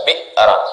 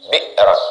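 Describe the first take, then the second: No difference in how they are said.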